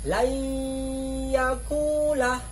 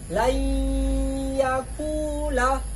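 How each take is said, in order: Both takes have the same delivery.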